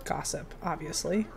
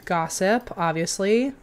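First: Whispered. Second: Said in the usual way. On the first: Real, not acted. Player picking the same option again, whispering. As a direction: Gossip breathed out, much softer.

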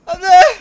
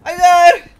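First: High loud repeated shout. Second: High loud shout. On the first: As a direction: yell it again across the battlefield. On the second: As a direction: yell it across the battlefield. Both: Acted. Shouting in battle game.

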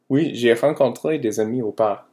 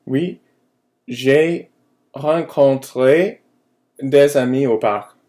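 First: Said in the usual way. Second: Each word slow, high and loud for learners; slow model answer. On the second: Shown as a demonstration. Teacher modelling the answer to her students, slow and clear. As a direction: spell it out slowly so the class can copy. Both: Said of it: "And a response".

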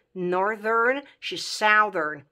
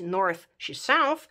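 First: "northern" and "southern" with buzzed middle "th"; voiced th. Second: "north" and "south" slowly, each ending in unvoiced "th"; voiceless th. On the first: Teacher showing what the words become, voiced th. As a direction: say both adjectives with the voice on at "th". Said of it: "ele vor deveni". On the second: Teacher contrasting base words with adjectives, slow voiceless th. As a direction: say both words with a breathy dental ending. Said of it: "Din t cu limba între dinți". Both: Shown as a demonstration.

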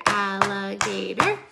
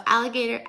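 First: Slow, split into separate syllables. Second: Said in the usual way. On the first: Shown as a demonstration. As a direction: tap out each beat of alligator. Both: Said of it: "count how many syllables".

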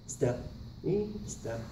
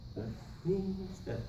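The two takes are said the same way.

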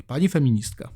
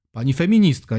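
First: Said in the usual way. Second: Louder, ironic on "feministka"; sarcastic. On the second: Shown as a demonstration. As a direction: stress "feministka" with mock respect. (sarkastycznie "Pani feministka") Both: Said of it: "jak ona się sama nazywa".

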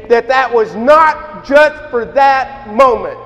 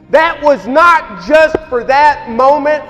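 First: Said in the usual way. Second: "not" hit hard in a preaching shout; stress on NOT. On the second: Real, not acted. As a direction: land on "not" like a gavel. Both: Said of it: "I will argue with any theologian".

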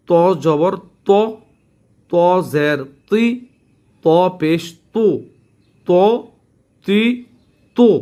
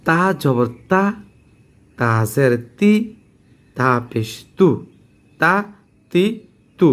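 First: ত, তি, তু full with rounded lips; heavy to drill. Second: তা, তি, তু thin with spread lips; light ta drill. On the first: Teacher contrasting two letters, heavy rounded to. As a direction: recite ত, তি, তু heavily, separated by pauses. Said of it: "পার্থক্য হলো ত". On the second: Teacher contrasting two letters, thin light ta. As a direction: recite তা, তি, তু lightly, separated by pauses. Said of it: "এখন পার্থক্য হলো ত". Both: Shown as a demonstration.

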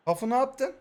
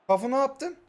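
The two takes are said the same way.

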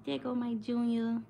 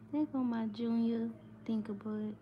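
First: Tender coo. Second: Soft, higher loving coo; tender coo. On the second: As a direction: coo gently, hushed. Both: Real, not acted. Cooing over sleeping baby.

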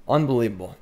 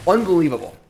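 First: Said in the usual way. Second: Unbelievable said higher and louder, in amazement; amazed. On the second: Real, not acted. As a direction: lift the first unbelievable with disbelief.

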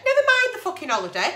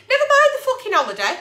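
First: Said in the usual way. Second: High, fast and loud, almost shrieking; exasperated shout. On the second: Real, not acted. Agony aunt shouting her outrage about the holiday. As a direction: blast it out in outrage. Ranting at absent partner.

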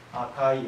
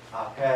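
First: Said in the usual way. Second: あけ as a soft, low "akee"; fuse ai in あけ to long ee; あけ with one long final e; older speakers' dialect form. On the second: Shown as a demonstration. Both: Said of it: "というふうに発音される".

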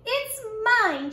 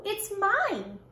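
First: Put-on high, louder child's yell; a stubborn kid's yell. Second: Said in the usual way. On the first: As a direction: yell it to win the argument. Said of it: "she yelled".

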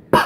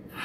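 First: Hard popped p; heavy p. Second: Barely closed lips, soft p; just touch the lips for the p; light p. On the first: Speech teacher modelling the rabbit, a heavy p. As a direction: burst the p with lots of air. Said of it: "Robert Rabbit says". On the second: Speech teacher modelling the turtle, a light p. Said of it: "Tina Turtle says". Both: Shown as a demonstration.

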